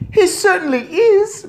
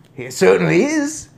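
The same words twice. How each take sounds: First: Very high, loud squeak; shrill squeaky shout of agreement; shouting mouse boy. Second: Loud, higher, firm voice; emphatic agreement. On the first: Mouse boy agrees from inside handbag, squeaky shout. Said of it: "Bruno shouted from inside the handbag". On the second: First take backing son over cat, emphatic. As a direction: assert it forcefully. Same words before the mouse's squeak. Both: A narrator's reading.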